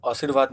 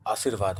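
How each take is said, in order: First: "आशीर्वाद" started on a short a, as असिरवाद; wrong first vowel. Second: "आशीर्वाद" started on a long aa; correct long vowel. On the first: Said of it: "आशीर्वाद नहीं होता है". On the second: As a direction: open "आशीर्वाद" on a full आ. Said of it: "आशीर्वाद होता है". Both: Shown as a demonstration.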